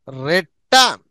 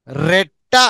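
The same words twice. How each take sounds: The two takes are said the same way.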